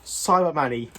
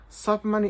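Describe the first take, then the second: First: Said in the usual way. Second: Said higher, testing the made-up word; doubtful, testing a new word. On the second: Shown as a demonstration. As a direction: try the invented word out, unsure. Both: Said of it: "is that a word?".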